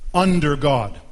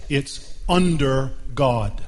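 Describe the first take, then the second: First: "Under God" said louder, punching UNDER; emphatic restated "Under God"; louder repeat. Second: Slow, weighty "under God" with UNDER leaned on; slow emphatic "under God"; stress on under. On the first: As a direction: repeat "Under God" with more force, hitting "Under". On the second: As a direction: drag out "It's under God" and land hard on "under". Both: Shown as a demonstration. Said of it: "Two words".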